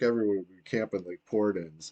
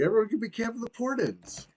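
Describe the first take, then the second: First: It is said in a gloomy, negative tone. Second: It is said in an upbeat, positive tone.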